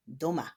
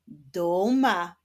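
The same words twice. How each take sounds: First: Said in the usual way. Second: "Duma" in two sustained beats; split into syllables. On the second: Shown as a demonstration. Repeats rebus answer in syllables.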